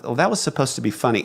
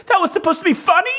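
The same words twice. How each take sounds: First: Said in the usual way. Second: Much higher, fast, amazed question; incredulous wife. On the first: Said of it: "And I was". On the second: Retold or imitated. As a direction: squeal it like a delighted wife who can't believe it. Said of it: "she got the oddest look".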